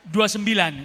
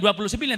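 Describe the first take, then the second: First: Every syllable of the number is fully pronounced. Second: The number is clipped, with syllables dropped. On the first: The speaker calls it right. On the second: The speaker calls it wrong.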